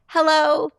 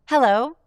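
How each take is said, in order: First: It sounds nervous, high and breath-held. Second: It sounds happy and relaxed, on the out breath.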